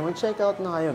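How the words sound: The voice sounds sad and regretful. "nalulungkot na parang mariregret nyo yan pag hindi"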